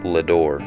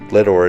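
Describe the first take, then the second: First: The name is said with a French-sounding pronunciation. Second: The name is said like the words 'lead ore'. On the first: The speaker is an out-of-towner. The speaker calls it wrong. "Locals to Leadore don't like it when out-of-towners pronounce its name Ledore. They say that saying it that way makes it sound French" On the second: The speaker is pronouncing it as the locals do. The speaker calls it right. "Leadore is pronounced just how you would expect"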